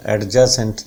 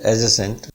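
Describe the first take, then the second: First: "एडजेसेंट" with an audible d, ad-ja-sent; D pronounced. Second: "एडजेसेंट" with silent d, a-juh-sent. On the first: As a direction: sound the d before j in "एडजेसेंट". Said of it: "नहीं होता". ("एडजेसेंट" में ड बोलकर, ऐड-जासेंट) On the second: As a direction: drop the d in "एडजेसेंट". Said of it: "डी silent होता है". ("एडजेसेंट" में ड चुप, अजेसेंट) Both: Shown as a demonstration.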